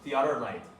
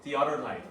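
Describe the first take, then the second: Both takes have the same delivery.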